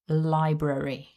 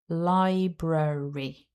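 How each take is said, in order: First: The word is said at a quicker pace. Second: The word is said at a slower pace.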